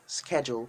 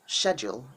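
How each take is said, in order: First: It is said with an American pronunciation. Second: It is said with a British pronunciation. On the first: "Schedule is American English" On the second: "schedule is British"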